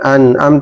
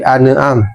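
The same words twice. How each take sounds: First: The throat consonant in the middle is weak. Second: The throat consonant in the middle is clear. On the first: The speaker calls it wrong. "Jadi bukan an'am" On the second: The speaker calls it right. "tapi an'am"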